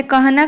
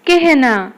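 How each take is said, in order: First: कहना with an open a before h; कहना said letter by letter, vowel unchanged; as spelt. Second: कहना said ke-h-na; कहना as spoken Hindi kehna; a becomes e. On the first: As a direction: read कहना as ka-ha-na. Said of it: "कहना कौन हेजिबो". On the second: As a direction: give कहना an e vowel before h. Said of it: "ए हेजिबो". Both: Shown as a demonstration.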